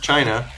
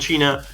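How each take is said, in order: First: The word is said with an English pronunciation. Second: The word is said with a non-English pronunciation.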